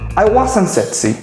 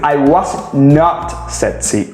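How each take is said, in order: First: The negative is contracted into one word. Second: The negative is said as two full words. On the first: "una contracción maravillosa que se llama wasn't" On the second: "vas a utilizar la forma negativa"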